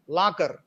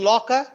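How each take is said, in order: First: The first vowel is an open unrounded 'a'. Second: The first vowel is rounded, like 'law'. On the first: The speaker calls it wrong. "in the Telugu way of speaking or pronouncing this word is lakar" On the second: The speaker calls it right. "Locker, law, or rounded"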